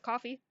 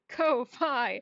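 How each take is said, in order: First: The first vowel sounds like in 'cough'. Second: The first vowel sounds like in 'go'. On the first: "Not as coffee" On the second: "the way it looks here is Ko-Fi"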